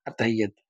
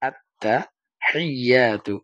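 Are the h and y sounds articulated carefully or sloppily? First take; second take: sloppily; carefully. First: The h and y sounds are rushed and blurred. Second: The h and y sounds are articulated slowly and clearly. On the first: The speaker calls it wrong. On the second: The speaker calls it right.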